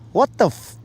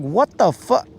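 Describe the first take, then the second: First: The last word stops right after the f sound. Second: The last word stops just before the k sound. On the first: "I might say that. And then I'd stop" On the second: "I did not enunciate the k"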